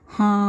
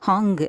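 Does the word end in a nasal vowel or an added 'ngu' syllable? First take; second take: nasal vowel; ngu syllable. First: The word ends in a nasalized long vowel. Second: The word ends with an added 'ngu' syllable. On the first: The speaker calls it right. "அந்த ஹாவை மூக்கு வழியாக சொல்லணும்" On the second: The speaker calls it wrong. "ஹாங்கு அப்படி சொல்லக்கூடாது"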